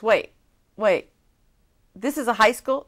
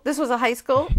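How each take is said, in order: First: Louder, rising, can't believe it; surprised. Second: Was pushed up high and loud in This was a high school; stress on was. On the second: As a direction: land hard on was, rising. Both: Retold or imitated. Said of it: "she goes".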